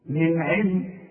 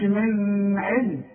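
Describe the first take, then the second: First: من علم with a short noon, no hum before the ع; clear noon. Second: من علم with a long hum held on the noon; sung, stretch the ن of من علم slowly into a ghunna; wrong nasal hum. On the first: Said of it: "والعين من حروف الإظهار". (من علم بإظهار النون من غير غنة) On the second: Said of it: "ما تقولش". (sung, من علم بغنة مطولة على النون بالغلط) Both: Shown as a demonstration.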